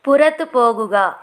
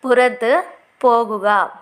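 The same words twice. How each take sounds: First: Said in the usual way. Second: Slow, clear teacher repeat of పురతు పోగుగా; slow model repeat. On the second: Shown as a demonstration. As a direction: say it slowly so learners can follow. (నెమ్మదిగా, స్పష్టంగా మళ్ళీ చెప్పడం)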